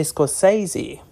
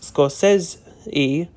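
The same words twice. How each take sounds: First: Scorsese said as "skor-SAY-zee"; common mispronunciation. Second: Scorsese said slowly as "skor-SESS-ee"; careful, slowed Scorsese, middle syllable rhyming with "less"; correct pronunciation. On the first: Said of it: "many people say Scorsese by accident". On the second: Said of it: "has his name pronounced Scorsese". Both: Shown as a demonstration.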